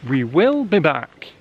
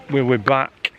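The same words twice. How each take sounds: First: Slow, with "will" said out in full and punched; stress on WILL. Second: Said in the usual way. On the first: Shown as a demonstration. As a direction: lean hard on "will" and say it slowly. Slower repeat with stress on will.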